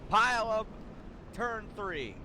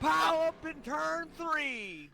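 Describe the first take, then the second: First: It is said flatly, without much energy. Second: It is said with lively enthusiasm.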